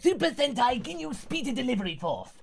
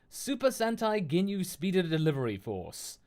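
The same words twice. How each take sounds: First: It is read in a put-on character voice. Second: It is read in the speaker's normal voice.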